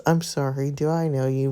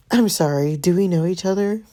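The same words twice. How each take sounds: First: Said in the usual way. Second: Cool, dismissive put-down; haughty brush-off. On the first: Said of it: "We're gonna do this". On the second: Shown as a demonstration. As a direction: brush him off coolly. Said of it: "he seems like the type".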